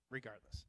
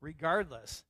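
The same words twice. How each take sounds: First: Softer, lower, weighty; softly repeated Regardless; quiet emphatic repeat. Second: Said in the usual way. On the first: Acted. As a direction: let the word sink in, hushed.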